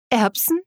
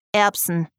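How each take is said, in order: First: ERBSEN as a higher, rising question; disbelieving echo. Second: Said in the usual way. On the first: A narrator's reading. Katrina doubts she heard the man right, disbelieving rising "Erbsen". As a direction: repeat "Erbsen" incredulously, pitch lifting at the end. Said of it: "wiederholte sie, sicher, dass sie bereits etwas".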